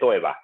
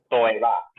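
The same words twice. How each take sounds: First: The word is said at normal conversational speed. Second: The word is said slowly and carefully.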